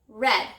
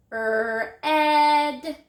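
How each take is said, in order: First: Said in the usual way. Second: 'Er, ed' drawn out, jumping higher and louder on 'ed'; stretched word. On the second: Shown as a demonstration. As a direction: stretch red as a long 'Er', then a long 'ed'. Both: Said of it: "Listen again".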